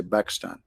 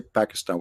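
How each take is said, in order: First: "Pakistan" in two syllables, pak-stan. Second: "Pakistan" in three syllables, pæk-i-stan; wrong way to say it. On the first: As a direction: drop the middle vowel in "Pakistan". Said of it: "we say Pakistan". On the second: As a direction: say "Pakistan" with the middle i sounded. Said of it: "we don't say Pakistan". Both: Shown as a demonstration.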